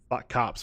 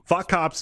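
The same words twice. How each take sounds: First: It is said with a flirtatious, desiring tone. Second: It is said with a hostile, contemptuous tone. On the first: Attraction to one particular cop. "when it's how we talk about Garrus" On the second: Contempt for police in general. "which is how we talk about most cops"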